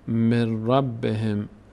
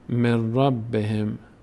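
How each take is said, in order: The two takes are said the same way.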